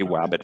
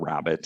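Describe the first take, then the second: First: The word begins with a w sound. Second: The word begins with a clear r sound. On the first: The speaker calls it wrong. "they say wabbit for rabbit" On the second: The speaker calls it right. "for rabbit"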